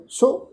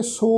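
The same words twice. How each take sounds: First: "ਸੋ" with a short, light vowel toward "su". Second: "ਸੋ" as a long, drawn-out "sohhh"; wrong long O. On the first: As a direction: keep the vowel in "ਸੋ" short, not a full o. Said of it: "ਔਂਕੜ ਦੀ ਮਾਤਰਾ ਹੈ". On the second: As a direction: stretch "ਸੋ" on a full o. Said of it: "ਹੋੜੇ ਦੀ ਮਾਤਰਾ ਲਗਾ ਕੇ". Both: Shown as a demonstration.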